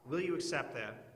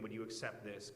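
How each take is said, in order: First: Eager pleading question, pushed out; hammed-up haggler pressing God; bargaining with God. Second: Softer, lower, plain asking; honest version. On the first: Preacher playing a sinner pressing God to accept, eager. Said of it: "we wouldn't say it like that". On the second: Shown as a demonstration. Preacher showing how people truly bargain, softer and lower. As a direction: quietly lay out the real prayer. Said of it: "It's the way that people negotiate".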